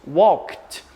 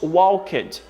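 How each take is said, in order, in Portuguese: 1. O K e o D ficam juntos. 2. O final -ed é uma sílaba extra. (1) "Como se o K e o D ficassem juntos" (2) "nós não falamos walked"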